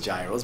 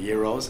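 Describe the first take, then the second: First: Gyros is said the common American way. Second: Gyros is said the original Greek way. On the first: This is how people in America usually say it. The speaker calls it wrong. "They they pronounce it gyros" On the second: This is the proper name of the dish. The speaker calls it right. "but it's the gyros"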